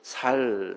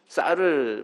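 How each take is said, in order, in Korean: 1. 첫 자음은 평음 s 소리입니다. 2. 첫 자음은 된소리 s 소리입니다. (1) "살, 살 그러죠" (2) "쌀을 발음을 제대로 못하고"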